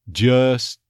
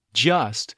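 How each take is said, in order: First: "Just" as "juhs" with a schwa; neutralized vowel. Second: Said in the usual way. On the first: Shown as a demonstration. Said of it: "neutralization of the schwa". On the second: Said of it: "you might drop the T here".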